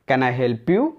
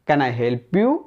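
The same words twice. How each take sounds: The two takes are said the same way.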